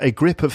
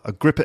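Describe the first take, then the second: First: It is said carefully with 'of' fully pronounced. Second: It is said quickly with 'of' reduced. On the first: The speaker calls it wrong. "it doesn't doesn't work like that" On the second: The speaker calls it right. "it's got to be said quickly"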